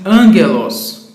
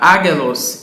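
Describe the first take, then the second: First: It has a nasal ng sound before the g. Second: It has a plain g with no nasal sound. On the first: The speaker calls it right. "e sim angelos, porque o gama vem antes de outro gama, assim nós o chamamos gama nasal" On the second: The speaker calls it wrong. "você não lerá agelos"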